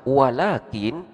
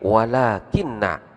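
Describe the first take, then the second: First: The n is single and ends the word. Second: The n is doubled and followed by a vowel. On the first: The particle's grammatical effect is cancelled. "dibaca takhfif, yaitu nunnya di sini disukunkan" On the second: The particle governs the following noun. "dibaca tafkil, artinya nunnya di sini dibaca tasydid"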